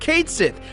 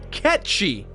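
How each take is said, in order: First: It is said like 'Kate Sith'. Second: It is said like 'Ketch-Shee'. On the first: This is how the game says it. The speaker calls it wrong. "The game calls Cait Sith" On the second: This is the original pronunciation. The speaker calls it right. "the correct pronunciation is in fact"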